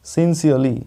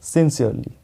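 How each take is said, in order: Both takes have the same delivery.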